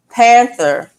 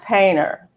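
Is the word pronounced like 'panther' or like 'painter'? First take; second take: panther; painter. First: It is said with a 'th' sound, as 'panther'. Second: It is said with a 't' sound, as 'painter'. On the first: "panther is pronounced" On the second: "pronounced painter"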